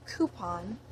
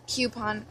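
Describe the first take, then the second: First: "coupon" said "KOO-pon"; coupon as coo-pon. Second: "coupon" said "KYOO-pon"; coupon as cue-pon. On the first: Reading a word list, "coupon" as "KOO-pon". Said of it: "either one". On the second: Giving the usual choice, "coupon" as "KYOO-pon". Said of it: "I usually say coupon". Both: Shown as a demonstration.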